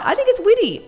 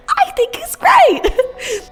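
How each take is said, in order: First: Said in the usual way. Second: Much higher, slow and drawn out with a laugh; high-pitched voice. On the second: Shown as a demonstration. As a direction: squeak it out sweetly in a high voice. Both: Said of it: "I say it with a high-pitched voice".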